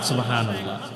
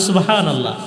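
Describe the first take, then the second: First: It is said at normal volume. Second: It is said more loudly.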